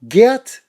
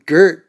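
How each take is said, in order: First: The name is attempted with its Dutch pronunciation. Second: The name is said like the English word Gert. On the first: "that's the only time I'm going to pronounce it or try to pronounce it correctly" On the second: "in Los Angeles, when you spell your name G E E R T, we call you Gert"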